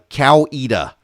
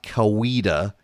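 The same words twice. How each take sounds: First: The name is said the local way. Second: The name is said a non-local way. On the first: The speaker calls it right. "Coweta, not Coweta" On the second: The speaker calls it wrong. "not Coweta"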